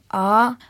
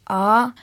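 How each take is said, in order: First: The pitch rises upward through the syllable. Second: The pitch rises upward through the syllable.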